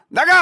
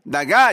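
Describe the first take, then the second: First: Forceful "나가" as a command; scolding demo. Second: Said in the usual way. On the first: Shown as a demonstration. Host corrects caller, forceful mock scolding. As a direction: throw them out with "나가". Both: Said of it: "이게 아니라니까".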